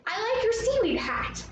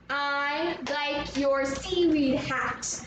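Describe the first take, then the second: First: High-pitched friendly compliment. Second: "I like your seaweed hat" slow, in even beats; syllable by syllable. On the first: Teacher models a compliment for Atlantis, friendly. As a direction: pay a compliment in a lifted, higher voice. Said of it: "We wanna be friendly". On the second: Teacher leads pupils all together, slowly beat by beat. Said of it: "Let's try it all together". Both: Shown as a demonstration.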